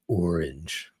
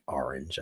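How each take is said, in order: First: It is said in a heavy, exaggerated New York accent. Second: It is said in a mild, everyday accent. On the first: This is a stereotype the speaker does not use. "I don't say orange. It's too much work" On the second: This is how the speaker really talks. "I do say orange"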